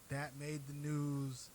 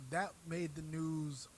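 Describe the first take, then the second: No difference in how they are said.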